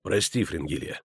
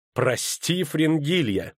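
First: Said in the usual way. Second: Echoes his words back, pitch climbing in scorn; sneering echo of an apology; mocking furious echo. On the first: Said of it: "Geralt's flat apology". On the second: A narrator's reading. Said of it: "яростно кривя губы".

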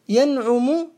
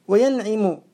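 First: ينعم said yanʕumu; damma on ينعم. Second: وينعم said wa-yanʕimu; kasra on وينعم. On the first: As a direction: put a u after the ʕayn in ينعم. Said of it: "بالضم". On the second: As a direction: put an i after the ʕayn in وينعم. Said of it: "بالكسر". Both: Shown as a demonstration.

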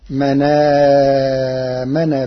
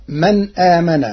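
First: "من آمن" run together as manaamana, long held a; Warsh reading. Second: Said in the usual way. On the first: Shown as a demonstration. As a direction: slowly glide through "من آمن" with no glottal stop. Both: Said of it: "بنقل حركة الهمز إلى الساكن قبله".

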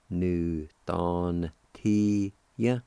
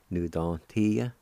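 First: "Nu don ti ya" very slowly, each syllable held; slow sounding-out. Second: Said in the usual way. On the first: Shown as a demonstration. Teacher models the word kindness for learners, slowly syllable by syllable. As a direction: stretch out every syllable of "Nu don ti ya". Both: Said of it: "like this".

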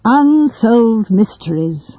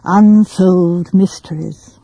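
First: Unsolved mysteries said slowly, relishing each word; savoring the words. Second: Self-conscious pleasure. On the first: A narrator's reading. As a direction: roll "Unsolved mysteries" out with self-conscious pleasure. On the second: Acted. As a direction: repeat "Unsolved mysteries" slowly and deliberately, falling at the end. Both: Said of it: "repeated the words with a kind of deliberate, self-conscious pleasure".

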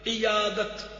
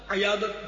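First: "عیادت" as iyadat, short i first; correct pronunciation. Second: "عیادت" as ayadat, starting with a; mispronounced "عیادت", a for i; wrong pronunciation. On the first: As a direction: say "عیادت" carefully as i-yaa-dat. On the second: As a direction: say "عیادت" casually with a first. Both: Shown as a demonstration. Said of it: "عیادت نہیں".

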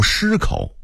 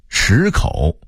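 First: 失口 as shīkǒu, first syllable high level; level first tone opening 失口; Beijing-style 失口 with shī held level; Beijing dialect reading. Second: Said in the usual way. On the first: Shown as a demonstration. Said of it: "北京话读". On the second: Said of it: "北京话读失口".

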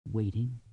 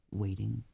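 Both takes have the same delivery.

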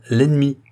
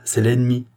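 First: L'ennemi repeated louder, hammered home; repeated for emphasis. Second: Said in the usual way. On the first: Acted. Barnave insists to the queen, repeating l'ennemi forcefully. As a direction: hit l'ennemi hard the second time. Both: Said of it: "répéta Barnave".

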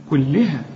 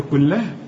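First: كلها with the lam clearly under kasra, kulliha; correct kasra. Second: كلها without the kasra on the lam; mock mistake on كلها; wrong vowel. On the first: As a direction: say كلها with li, not la. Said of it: "اللام هنا مكسورة". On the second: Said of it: "اوعى تقول لي كلها". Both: Shown as a demonstration.

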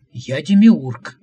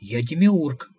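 First: Slow, much louder proclamation; grand declaration. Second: Sulking, repeating it plainly; sulky insistence. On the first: Visitor proclaiming to the prophet that he is the demiurge, booming. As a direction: announce yourself like a god. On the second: Visitor sulking at the mocking prophet, repeating his claim. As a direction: insist with a pout. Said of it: "Шамбамбукли насупился". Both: A narrator's reading.

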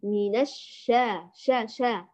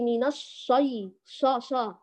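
First: الشا with thin, front sh and open a; light shin. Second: الشي with a thick, backed shaa sound; emphatic dark sha in الشي; heavy shin. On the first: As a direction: model light, unthickened ش in الشا. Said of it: "هذا كمان من الأخطاء الشائعة". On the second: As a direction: wrongly thicken the ش and vowel in الشي. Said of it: "ولا تفخميها". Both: Shown as a demonstration.

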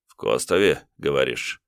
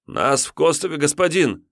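First: Ниже и тише, с прищуром; подозрительно переспросить; недоверчивый тиун. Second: Высоко, торопливо; ответить с поклоном; испуганный отрок. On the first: (тиун недоверчиво переспрашивает) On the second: Отрок отвечает тиуну. (отрок испуганно отвечает тиуну) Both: Acted.

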